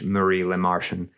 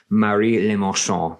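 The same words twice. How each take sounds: First: The name is said with an English accent. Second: The name is said with a French accent. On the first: "if you want to be American or English" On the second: "which is the French pronunciation"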